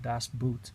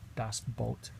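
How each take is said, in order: First: Boot is said like the English word boot. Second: Boot is said with a long o, like boat. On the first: The speaker calls it wrong. "A lot of people mispronounce it and call it" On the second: The speaker calls it right. "but it's actually pronounced"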